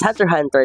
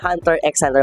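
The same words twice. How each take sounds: First: No x sound is spoken between the words. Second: The letter x is spoken between the words. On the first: The speaker calls it right. "it should only be uh, uh, pronounced or said as Hunter x Hunter lamang" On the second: The speaker calls it wrong. "kasi nga may X sa gitna"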